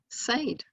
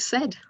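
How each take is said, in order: First: The vowel is long, rhyming with paid. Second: The vowel is short, rhyming with bed. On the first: This is how it may have been said in the past. "is the same spelling as made and paid" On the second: This is how it is said today. "we've changed the pronunciation to said"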